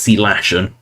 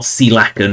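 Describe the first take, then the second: First: The word ends with a 'shun' sound. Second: The word ends with a 'ken' sound. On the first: The speaker calls it right. "it's Sealaction" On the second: The speaker calls it wrong. "It's not Sealacken"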